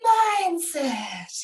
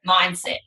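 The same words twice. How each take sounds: First: Mindset said the American way, drawn out; imitating American accent. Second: Mindset in a clipped Australian way; Australian accent. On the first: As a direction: Mindset with a mock American lilt. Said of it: "You've gotta say it like that". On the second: Shown as a demonstration. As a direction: Mindset the Australian way, quick and short. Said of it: "we say, we go".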